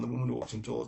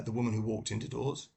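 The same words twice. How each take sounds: First: "Indoors" run together as one word; slurred title. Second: "Into Doors" said as two clear words, rising at the end; careful title. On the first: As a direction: say "Walked Indoors" quickly, blurring the title. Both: Real, not acted. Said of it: "Clearly she didn't walk into doors".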